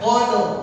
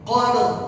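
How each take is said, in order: The two takes are said the same way.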